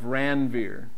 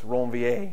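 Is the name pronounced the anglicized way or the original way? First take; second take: anglicized; original. First: The name is said the usual anglicized way. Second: The name is said in its original pronunciation.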